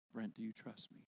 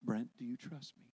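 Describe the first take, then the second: First: Much softer, low, hushed voice of God; almost whisper the question gently; God's voice. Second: Lightly lower, softer voice of God; gently ask, calm and low; God's voice. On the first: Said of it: "that voice say again". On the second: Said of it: "this same voice". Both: Retold or imitated.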